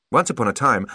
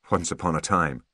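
First: Higher, lively character voice; pointed observation, pitched up; Holly's remark. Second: Understated echo. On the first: Holly telling Artemis he has changed, lively and pointed. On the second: Artemis answering Holly's remark, understated. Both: A narrator's reading.

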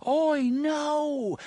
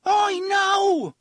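First: Faint far-off warning scream; distant scream. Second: Loud, very high warning; drawn-out desperate scream. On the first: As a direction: cry out high, as if heard through doors. Same scream heard faintly through doors. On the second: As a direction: scream to stop the animal. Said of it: "he screamed". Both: A narrator's reading.

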